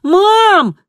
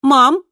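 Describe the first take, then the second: First: Long, high, desperate yell; shouting. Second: Raised, composed call. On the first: Kristina calling again to her mother, loud shout. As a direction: yell for Mom with full force. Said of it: "и снова выкрикнула". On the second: Double proving Mom hears her, calm raised call. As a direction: call Mom over, controlled and light. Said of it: "другая Кристина и позвала". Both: A narrator's reading.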